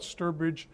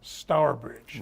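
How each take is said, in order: First: The name is said the American way. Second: The name is said the British way.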